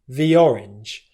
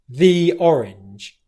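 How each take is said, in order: First: 'The' is weak and unstressed. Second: 'The' is strong and stressed. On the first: "Can you hear how that sounds completely different" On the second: "where I'm really stressing the word the"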